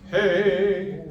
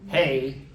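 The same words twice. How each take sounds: First: The vowel is tall with rounded corners. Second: The vowel is spread wide and sounds harsh. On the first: The speaker calls it right. "So we've got to turn it into hey" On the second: The speaker calls it wrong. "Hey is a really ugly sound. And the way we say it"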